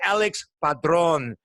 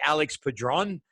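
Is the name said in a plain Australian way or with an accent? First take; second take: accented; Australian. First: The name is said with a put-on foreign accent. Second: The name is said in a plain Australian accent. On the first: "the way that we say it with an accent" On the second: "like in Australia, we say"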